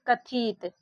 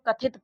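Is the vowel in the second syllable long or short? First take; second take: long; short. First: The second syllable has a long i vowel. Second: The second syllable has a short i vowel. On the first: The speaker calls it wrong. "अगर आपने इसमें आई से बड़ी की मात्रा लगा दी तो यहाँ पर देखिए इसको पढ़ेंगे" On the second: The speaker calls it right. "हम लोग कथित पढ़ते हैं।"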